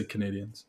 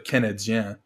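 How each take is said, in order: First: "Canadiens" said like English "Canadians"; English pronunciation. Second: "Canadien" said in French; French pronunciation. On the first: Guest showing what locals just say, English pronunciation. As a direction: say "Canadiens" the English way, "kuh-NAY-dee-ens". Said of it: "but we just say Canadiens". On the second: Guest showing the host the French name, French pronunciation. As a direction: say "Canadien" as French "ka-na-DYAN", nasal ending. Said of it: "is just a French pronunciation". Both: Shown as a demonstration.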